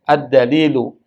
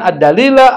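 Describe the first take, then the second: First: The word ends with a u vowel. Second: The word ends with an a vowel. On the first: The speaker calls it right. "saya baca ad-dalilu karena dia mubtada" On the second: The speaker calls it wrong.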